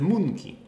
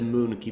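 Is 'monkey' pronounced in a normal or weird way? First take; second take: weird; normal. First: The word is pronounced in an odd, distorted way. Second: The word is pronounced in the ordinary way. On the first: "I love pronouncing it in this weird fashion" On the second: "It's not the monkey"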